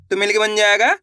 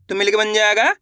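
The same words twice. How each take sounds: The two takes are said the same way.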